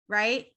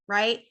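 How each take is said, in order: No difference in how they are said.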